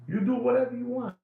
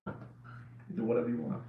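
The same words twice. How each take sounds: First: Said in the usual way. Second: Breathy whispered aside, much softer. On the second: Acted. Repeats the line, then whispers it.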